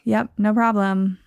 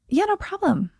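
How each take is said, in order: First: It sounds reluctant and not fine with it. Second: It sounds willing and fine with the request.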